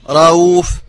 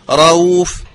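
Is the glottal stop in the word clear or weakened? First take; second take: weakened; weakened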